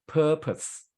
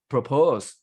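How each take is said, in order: First: "purpose" as PUR-pus, PUR high; stress on first syllable. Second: "propose" as pro-POSE, louder on POSE; stress on second syllable. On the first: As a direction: raise PUR in "purpose", let the rest drop. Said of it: "at the first syllable". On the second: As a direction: hit the long "oh" of POSE in "propose". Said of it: "not the word pro-, propose". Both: Shown as a demonstration.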